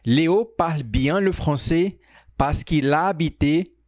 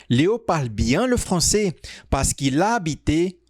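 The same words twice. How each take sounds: The two takes are said the same way.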